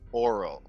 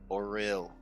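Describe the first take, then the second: First: It is said like the word oral. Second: It is said as or plus real. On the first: It sounds like the word for the mouth. The speaker calls it wrong. "It sounds like you're saying oral, like mouth" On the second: It names the intended place or thing. The speaker calls it right. "or real is how you say it"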